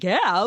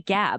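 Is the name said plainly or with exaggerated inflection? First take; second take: exaggerated; plainly. First: The name is said with exaggerated, swooping inflection. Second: The name is said flat and plain. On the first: "some kind of crazy inflection" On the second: "I didn't just say Gab"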